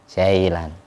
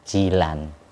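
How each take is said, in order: First: The first vowel sounds like 'eye'. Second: The first vowel sounds like 'ee'. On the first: It follows English reading habits. "akhirnya i dibaca I" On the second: It follows the original Arabic spelling. "Aslinya yang benar itu Jilan"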